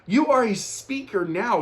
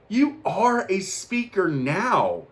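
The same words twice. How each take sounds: First: Lifted affirmation. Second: Slow affirmation. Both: Retold or imitated. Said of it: "I was like".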